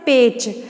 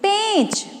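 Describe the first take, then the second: First: The vowel is said without nasal sound. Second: The vowel is said with nasal sound. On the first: The speaker calls it wrong. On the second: The speaker calls it right.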